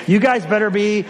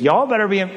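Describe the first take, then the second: First: Said in the usual way. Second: Slipping into a Southern twang; higher-pitched, playful Southern admonishment; Southern accent. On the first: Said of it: "went Southern there for a second". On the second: Real, not acted. Preacher nudging congregation toward Bible study, Southern accent. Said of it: "I don't know why I went Southern".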